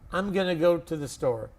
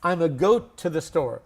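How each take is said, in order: First: 'Going to' is reduced to 'gonna'. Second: 'Going to' is reduced to just 'a'. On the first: "it is called fast English" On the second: "There's another way. A lot of people are saying it now"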